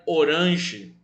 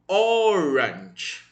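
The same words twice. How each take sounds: First: The stress is on the second syllable. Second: The stress is on the first syllable. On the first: The speaker calls it wrong. "Essa palavra em português seria paroxítona" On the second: The speaker calls it right. "a sílaba tônica é o primeiro O"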